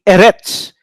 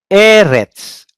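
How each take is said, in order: First: "Eretz" with a short E and stressed retz; "Eretz" as eh-RETS, the wrong accent; stress on last syllable. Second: "Eretz" with a high, long first E; "Eretz" as EH-rets, falling after the first syllable; stress on first syllable. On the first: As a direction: throw the weight onto the end of "Eretz". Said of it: "I will not say Eretz". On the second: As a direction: punch the opening vowel of "Eretz". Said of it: "where you pronounce the accent". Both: Shown as a demonstration.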